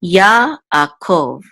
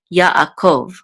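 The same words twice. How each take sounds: First: "Yaakov" slowly parted as ya-ah-kov; syllable by syllable. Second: "Yaakov" run together as one word, ya-a-kov; syllables joined. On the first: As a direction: sound out each syllable of "Yaakov" for learners. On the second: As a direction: blend the syllables of "Yaakov" more quickly. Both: Shown as a demonstration. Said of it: "which says kov".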